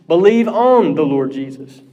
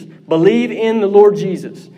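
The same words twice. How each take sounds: First: "on" hit as the key word, rest level; stress on ON. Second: "Lord" lifted and leaned on, "in" unstressed; weight the word "Lord" in "Believe in the Lord Jesus"; stress on Lord. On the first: Preacher stressing the believe "on" wording, on emphasized. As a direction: lean on the preposition "on". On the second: Preacher quoting scripture to the congregation, Lord stressed. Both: Shown as a demonstration. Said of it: "This is almost always the emphasis".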